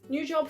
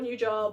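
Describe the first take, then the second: First: It is said in a cheerful, excited tone. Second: It is said in a groaning, annoyed tone. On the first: The job is something to celebrate. "fun new job" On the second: The job is an unwelcome burden. "like, ugh"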